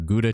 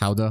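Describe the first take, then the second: First: The word is said with an English pronunciation. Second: The word is said with a European pronunciation.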